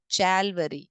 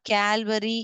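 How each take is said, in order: First: The word begins with a ch sound. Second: The word begins with a k sound. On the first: "It is not Chalvary" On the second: "It is not Calvary"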